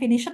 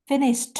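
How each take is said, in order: First: The word ends without a d sound. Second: The word ends with a d sound. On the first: The speaker calls it wrong. "Bukan finished ya" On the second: The speaker calls it right. "seperti ada dehnya di ujung"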